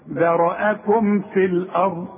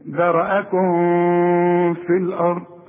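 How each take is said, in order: First: The m sound is pronounced clearly with closed lips. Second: The m sound is weakened and hidden. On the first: The speaker calls it right. "خلي الميم تظهر وتبان جدا. شوف" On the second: The speaker calls it wrong. "عارف ممكن تقول ايه؟ ... غلط غلط"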